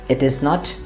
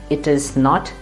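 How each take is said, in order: The two takes are said the same way.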